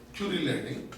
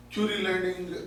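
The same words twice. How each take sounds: The two takes are said the same way.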